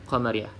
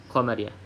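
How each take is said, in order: Both takes have the same delivery.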